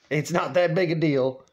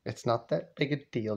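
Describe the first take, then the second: First: Full-voiced, deliberate placating; imitated son's steady insistence; firm reassurance. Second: Soft, low-key reassurance; imitated son's muted plea; hushed placating. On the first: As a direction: state it evenly to settle someone. Dad repeats it more firmly. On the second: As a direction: play it down quietly, under the breath. Dad hushedly placates his mother.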